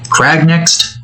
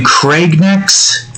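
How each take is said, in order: First: "Crag" with the vowel of "cat"; crag with short a. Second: "Craig" in place of crag. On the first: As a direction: open the vowel in "Crag", questioning it. Corrects the word just said. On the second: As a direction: say "Craig" with the vowel of "egg" or "vague". Says name, then corrects it. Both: Real, not acted.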